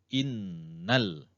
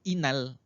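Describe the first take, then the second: First: The nasal n is held for two counts. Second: The n is short with no held nasal. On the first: The speaker calls it right. "wajib dengung. Nah, wajib ditahan dua harkat" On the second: The speaker calls it wrong. "Bukan inal. Inal salah"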